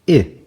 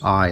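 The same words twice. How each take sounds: First: The vowel sounds like the i in itch. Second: The vowel sounds like the i in ice. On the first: "the short vowel sound of I" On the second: "that's a long vowel I when it goes I"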